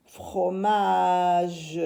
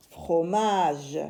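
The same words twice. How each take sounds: First: FROMAGE with a long held MA; drawn-out word. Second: Said in the usual way. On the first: Shown as a demonstration. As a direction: stretch "Fromage" slowly through its syllables. Teacher blends the finished word.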